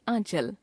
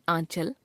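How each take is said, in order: First: Said in the usual way. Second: आंचल with full n before ch; wrong pronunciation. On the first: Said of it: "शुद्ध". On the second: Shown as a demonstration. Teacher showing a common error, आंचल with full n. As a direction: sound अनुस्वार as n in आंचल. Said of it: "अशुद्ध".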